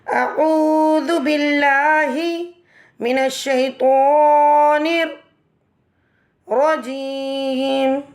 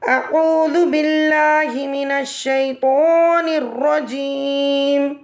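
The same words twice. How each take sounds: First: It is said in three parts with pauses. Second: It is said as one whole without pauses.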